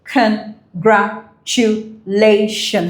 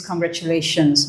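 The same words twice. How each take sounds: First: Very slow, each syllable its own puff. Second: Said in the usual way. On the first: Shown as a demonstration. Teacher counting syllables for students, syllable by syllable. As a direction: break CONGRATULATIONS into separate syllables with gaps. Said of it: "in a puff of breath".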